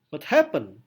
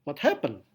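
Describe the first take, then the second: First: Happened punched louder with a falling tune; stress on happened. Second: Said in the usual way. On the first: Shown as a demonstration. Teacher showing the class stress on happened. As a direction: hit the word happened hard. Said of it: "Penekanan pada kata happen". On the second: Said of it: "Saya akan tirukan".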